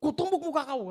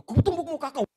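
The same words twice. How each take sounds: First: Loud high shouted threat; mock furious shout. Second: Loud, high mock shout; haunting angry threat. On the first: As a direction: hurl the threat again like the angry man. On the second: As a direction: replay the threat like it echoes in your head. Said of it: "penampakan wajah Bapak itu".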